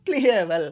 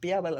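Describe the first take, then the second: First: The word starts with a p followed by l. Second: The word starts with p and no l sound. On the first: The speaker calls it right. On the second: The speaker calls it wrong. "ಪಿಯಬಲ್ ಅಲ್ಲ"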